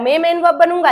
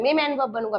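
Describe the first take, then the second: First: Insistent claim. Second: Softer, lower rival verb; understated rival claim. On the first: First verb competes to be main verb, insistent. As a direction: stake your claim firmly. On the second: Second verb also claims main role, understated. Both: Acted.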